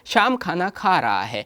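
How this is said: All words are said with even stress. It is a plain statement with no special focus. "सम स्वर में बोलते हैं"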